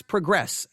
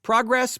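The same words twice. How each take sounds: First: Progress with stress on the second syllable; verb pronunciation. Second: Progress stressed high and loud on the first syllable; noun pronunciation. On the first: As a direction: say progress as the verb, pruh-GRESS. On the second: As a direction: say Progress as the noun, PROG-ress. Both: Shown as a demonstration. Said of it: "it's pronounced differently".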